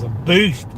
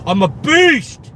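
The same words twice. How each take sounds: First: Said in the usual way. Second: Loud, high, drawn-out boast; mock-macho roar. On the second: Driver bragging about carrying bags one-armed, mock-macho roar. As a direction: bellow it like a playful strongman. Playful boast repeated louder.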